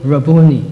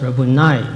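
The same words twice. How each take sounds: First: "Rabboni" stressed on the middle syllable, BOO. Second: "Rabboni" with the accent on the last syllable. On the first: Preacher quoting Mary's reply, "Rabboni" stressed on BOO. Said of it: "Actually, it should be pronounced Rabboni". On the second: Preacher correcting the pronunciation, "Rabboni" accented on the last syllable. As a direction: say "Rabboni" as ra-boo-NI, stress at the end. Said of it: "the accent on the last syllable". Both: Shown as a demonstration.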